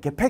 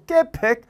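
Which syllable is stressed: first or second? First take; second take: second; first. First: The stress is on the second syllable. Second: The stress is on the first syllable. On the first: The speaker calls it right. "개팩 해야지" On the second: The speaker calls it wrong. "개팩 그러면 안 된단 말이야"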